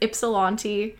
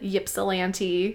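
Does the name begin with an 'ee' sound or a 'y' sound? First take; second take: ee sound; y sound. First: The name begins with an 'ee' vowel sound. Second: The name begins with a 'y' consonant sound. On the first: The speaker calls it right. "it's pronounced like an I" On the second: The speaker calls it wrong. "she pronounced it like a Y"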